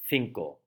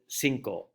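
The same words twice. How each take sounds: First: The first consonant is a th sound. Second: The first consonant is an s sound. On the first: This is the Castilian way of saying it. "A Spaniard will pronounce it cinco" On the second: This is the Latin American way of saying it. "to a Mexican, Central American, South American, or a Caribbean inhabitant. They will pronounce it cinco"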